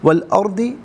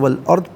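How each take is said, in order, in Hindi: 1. शब्द अंत में अंतिम 'i' स्वर के साथ खत्म होता है। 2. शब्द व्यंजन पर खत्म होता है, कोई स्वर नहीं।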